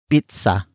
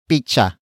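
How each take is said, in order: First: The middle consonant is not a ch sound. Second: The middle consonant is a ch sound. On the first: "It is the Tagalog pronunciation for pizza" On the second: "Some Tagalog speakers pronounce pizza as picha"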